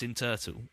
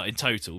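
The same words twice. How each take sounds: First: "turtle" with an er vowel for total; misheard pronunciation. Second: Said in the usual way. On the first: Shown as a demonstration. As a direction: say "turtle" where total is meant. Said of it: "it sounded like I was saying". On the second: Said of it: "Well, in total".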